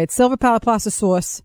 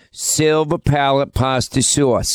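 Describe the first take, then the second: First: "It's silver palate pasta sauce" with "sauce" said "sors", r-coloured; Linda's "sauce" with a long r-colored vowel; right way. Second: "Silver palate pasta sauce" with "sauce" said as "sus", drawn out slowly; teasing "sauce" as "sus"; mock your way. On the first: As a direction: correct her with "sauce" as "sors". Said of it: "That's not even the right way". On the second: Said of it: "say it the right way or your way". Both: Shown as a demonstration.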